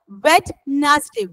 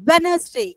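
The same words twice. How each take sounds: First: Slow Wednesday in separate parts, D sounded; Wednesday sounded by spelling. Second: Wednesday run together without the D; Wednesday with silent D. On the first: Teacher shows how it is written, D sounded in Wednesday. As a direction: split Wednesday into Wed and nes-day. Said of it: "You have to read like this also". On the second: Teacher models reading for pupils, silent D in Wednesday. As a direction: say Wednesday smoothly, D dropped. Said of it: "D is just a silent word". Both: Shown as a demonstration.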